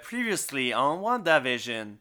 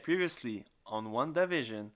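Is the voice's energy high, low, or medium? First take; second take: high; low. First: It is said with lively, high energy. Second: It is said tired, with little energy.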